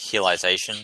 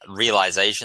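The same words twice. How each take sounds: First: The word begins with an H-like sound. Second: The word begins with an English R sound.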